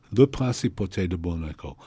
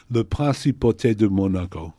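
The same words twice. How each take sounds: First: "Le Principauté de Monaco" again, lower and even, no stressed syllable; French pronunciation. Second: "Le Principauté de Monaco" said French style with all syllables evenly weighted; French pronunciation. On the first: Teacher repeating the phrase to show even French accent. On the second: Teacher showing level French accent on a phrase. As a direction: say "Le Principauté de Monaco" with no strong stressed beat. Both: Shown as a demonstration. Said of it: "what you have to say is".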